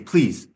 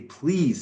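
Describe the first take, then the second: First: It sounds curt and dismissive. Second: It sounds warm and sincere. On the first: The speaker does not really mean it. The speaker calls it wrong. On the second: The speaker truly means the kindness. The speaker calls it right.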